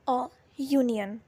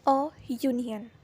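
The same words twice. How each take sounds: First: "अ यूनियन" said slowly, with "यूनियन" starting "yu"; model pronunciation. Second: Said in the usual way. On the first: Shown as a demonstration. Teacher slowly models "अ यूनियन" for students. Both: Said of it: "next है".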